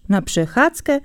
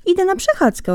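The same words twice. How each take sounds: First: Mocking. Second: Bright, much higher innocent reply; hedgehog answering. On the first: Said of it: "zaśmiał się drwiąco zając". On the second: Acted. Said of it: "odparł Jeż". (Jeż odpowiada zającowi niewinnie, wysoko)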